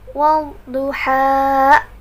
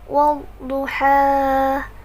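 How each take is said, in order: First: The final syllable ends with a pressed glottal catch. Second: The final syllable fades softly without a catch. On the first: The speaker calls it wrong. "seolah-olah di akhir ha itu ada hamzah, jadi ditekan ha" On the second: The speaker calls it right. "Kita akan baca surah Ad-Duha yang benar"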